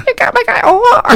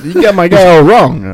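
First: Far higher, squeaky copy; echoing the line as Smelmo. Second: Put-on character voice. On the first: Acted. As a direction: squeak it way up high. Echoed much higher. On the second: Walken-style put-on.

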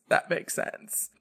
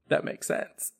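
First: Slow stunned whisper. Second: Stunned whisper. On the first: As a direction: whisper "That makes sense" slowly and higher, drawn out. His stunned reaction repeated. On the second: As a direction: whisper "That makes sense" softly, almost breathless. His stunned reaction to mom. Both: Retold or imitated.

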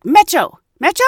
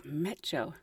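First: High, loud repeated question; insistent guard call. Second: Low, much softer baffled echo; puzzled murmur. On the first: Gate guard insisting to the confused couple, loud repeated call. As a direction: push the word at them again. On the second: Couple looking at each other over the guard's word, quiet baffled echo. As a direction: repeat the strange word to each other, confused. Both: Retold or imitated.

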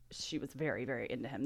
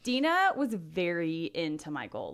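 First: "very, very" dropped low and soft for emphasis; stress on very. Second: Said in the usual way. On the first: Shown as a demonstration. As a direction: lean softly into "very, very into him".

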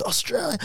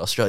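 First: Higher, breathless, thrilled echo of Australia; excited echo. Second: Said in the usual way. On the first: Retold or imitated. Stranger in Harlem hears tourist is from Australia, excited echo. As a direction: gasp Australia out like the best news ever.

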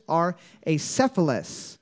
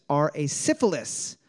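First: "acephalous" said as ay-SEF-uh-lus; short e in the stressed syllable of "acephalous"; pronounced with SEF. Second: "acephalous" said as ay-SIF-uh-lis; short i in the second syllable of "acephalous"; mispronounced like syphilis. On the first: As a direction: say "acephalous" with SEF, unlike syphilis. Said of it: "It's cephalus". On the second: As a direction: rhyme the end of "acephalous" with syphilis. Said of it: "He did say syphilis first". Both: Real, not acted.

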